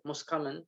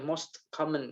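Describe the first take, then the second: First: The t at the end of most is dropped. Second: The t at the end of most is pronounced. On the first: The speaker calls it right. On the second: The speaker calls it wrong.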